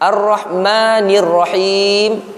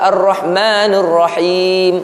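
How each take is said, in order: First: The syllable before Rahim has a clear 'i' vowel. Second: The syllable before Rahim has an 'e' vowel. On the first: The speaker calls it right. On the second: The speaker calls it wrong.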